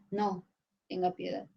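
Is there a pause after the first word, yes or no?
yes. There is a pause after no.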